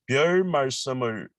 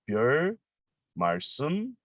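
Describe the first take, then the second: First: The phrase is said at normal speed. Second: The phrase is said slowly and carefully.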